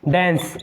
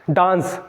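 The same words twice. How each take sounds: First: डांस said as "dens", with an "e" vowel; correct pronunciation. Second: डांस with a long "aa", as "daans"; wrong pronunciation. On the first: Teacher models the word for students, डांस pronounced "dens". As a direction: say डांस to rhyme with "ens". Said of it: "pronunciation को भी सही करना है". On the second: Teacher demonstrates the mistake to students, डांस with long "aa". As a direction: say डांस as "daans", not "dens". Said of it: "बिल्कुल गलत". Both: Shown as a demonstration.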